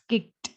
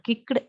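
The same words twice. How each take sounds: First: The ending is a plain t sound. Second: The ending is not a plain t sound. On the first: The speaker calls it right. "we have to pronounce it a t sound" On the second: The speaker calls it wrong. "it's not kicked"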